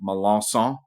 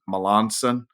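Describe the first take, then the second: First: The name is said in a French Louisiana way. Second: The name is said in a softer English way. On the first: This is the name's native regional pronunciation. "I'm from South Louisiana, so my last name is pronounced" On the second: This version is easier for most English speakers. "normally I just tell people it's Melanson. Seems a little softer"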